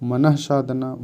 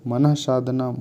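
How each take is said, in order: No difference in how they are said.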